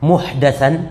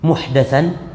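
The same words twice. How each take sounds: First: The vowel after the d is 'a'. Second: The vowel after the d is 'a'.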